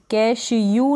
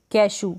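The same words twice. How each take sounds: First: कैश यू with an added "you" sound at the end; wrong-reading demo, कैश यू as "cash-you"; mispronounced with y-glide. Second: Said in the usual way. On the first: Shown as a demonstration. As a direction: say कैश यू, ending in "yoo" instead of plain "oo". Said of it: "यू वाला sound नहीं आएगा". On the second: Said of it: "कैश यू नहीं पढ़ेंगे".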